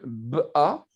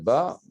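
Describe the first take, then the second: First: The consonant and vowel are pulled apart. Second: The consonant and vowel run together smoothly. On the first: The speaker calls it wrong. "j'exagère, c'est pas comme ça qu'on fait" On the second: The speaker calls it right. "c'est ba"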